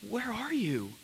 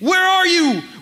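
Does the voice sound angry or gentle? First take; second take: gentle; angry. First: It is said in a gentle, searching tone. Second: It is said in an angry tone.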